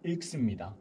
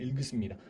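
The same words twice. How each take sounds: First: "इल्क" ending on a sharp, unvoiced k, the right way; crisp k ending. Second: "इल्ग" ending on a soft, voiced g sound, the wrong way. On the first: Teacher showing students the correct ending, with a crisp k. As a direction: snap "इल्क" shut on a clean k. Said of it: "इसको बोलेंगे इल्क". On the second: Teacher showing students the wrong ending, with a voiced g. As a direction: let "इल्ग" close on a buzzing g as the mistake to avoid. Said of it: "इल्ग नहीं बोलेंगे". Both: Shown as a demonstration.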